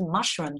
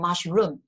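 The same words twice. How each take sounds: First: The stress is on the first syllable. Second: The stress is on the second syllable. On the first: The speaker calls it right. "就是mushroom 重音在这边" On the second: The speaker calls it wrong. "我们就不念mushroom"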